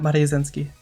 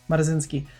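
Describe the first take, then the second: First: The second syllable sounds like 'riu'. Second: The second syllable sounds like 'ra'. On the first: The speaker calls it wrong. "I keep saying it wrong. It's Marazensky, not Mariuzensky" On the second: The speaker calls it right. "It's Marazensky"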